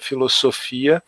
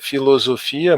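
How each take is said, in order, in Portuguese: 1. A consoante do meio tem som de S. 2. A consoante do meio tem som de Z. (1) "mas em grego é" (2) "aí o S tem som de Z nessa pronúncia"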